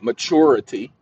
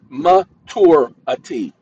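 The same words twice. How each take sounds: First: The middle consonant is a ch sound. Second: The middle consonant is a plain t sound. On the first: The speaker calls it wrong. "Sorry if you guys are pronouncing that maturity" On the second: The speaker calls it right. "there's no CH in that word"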